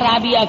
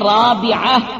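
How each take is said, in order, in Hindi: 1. यह नाम गले की 'ain' आवाज़ के बिना बोला जाता है। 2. यह नाम गले की 'ain' आवाज़ के साथ बोला जाता है। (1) "लेकिन गलत बोलते हैं, राबिया राबिया कर देते हैं" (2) "ऐन से है राबिया"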